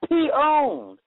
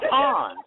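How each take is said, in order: First: It sounds like a p followed by owned. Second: It sounds like the single word pawned. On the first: "You just you just got p-owned" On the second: "That's right"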